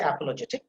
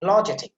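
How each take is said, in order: First: "apologetic" with the opening a fully sounded; common mispronunciation. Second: "Apologetic" with the opening a dropped, like "pologetic"; corrected pronunciation. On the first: Teacher quoting how we usually say it, full first vowel in "apologetic". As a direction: say "apologetic" starting on a clear a vowel. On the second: Teacher correcting the usual pronunciation, first vowel swallowed in "Apologetic". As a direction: start "Apologetic" almost straight on the p. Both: Shown as a demonstration. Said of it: "that is not the correct pronunciation".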